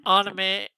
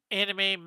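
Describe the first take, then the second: First: "anime" said as AH-nuh-muh, open ah start and a muh ending; "anime" starting on ah, ending on a dull uh; anime, first try. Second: "anime" said as AN-uh-mee, short a start and a clear ee ending; "anime" with the first syllable like "an" and a final ee; anime, corrected. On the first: Streamer fumbles the word while describing her drawing style, says anime as AH-nuh-muh. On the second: Streamer corrects herself on the art style word, says anime as AN-uh-mee. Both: Real, not acted.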